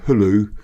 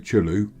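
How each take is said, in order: First: The word begins with a soft h sound. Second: The word begins with a hard ch sound. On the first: The speaker calls it right. "the C is silent" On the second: The speaker calls it wrong. "if you've just read it, you'd say"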